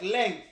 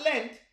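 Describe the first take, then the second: First: "length" with its ng sound before the ending; "length" pronounced as the measure, with ng; length, not Lent. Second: "length" said as "lent", with a plain t ending; "length" turned into "lent". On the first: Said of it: "Not length". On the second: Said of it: "but length". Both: Shown as a demonstration.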